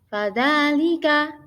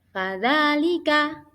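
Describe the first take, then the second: No difference in how they are said.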